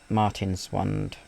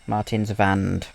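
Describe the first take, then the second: First: The w is said like an English w. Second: The w is said like a v. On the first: The speaker calls it wrong. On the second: The speaker calls it right.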